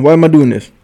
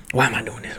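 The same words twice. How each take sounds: First: Louder, half-shouted self-question; exasperated outburst at his own late-night drinking; loud exasperation. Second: Much softer, muttered to himself; quietly asking himself again; quiet repeat. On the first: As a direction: throw the question out loud at yourself. Asks himself at two AM. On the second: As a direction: drop it down to a private mutter. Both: Real, not acted.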